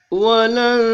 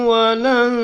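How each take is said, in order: No difference in how they are said.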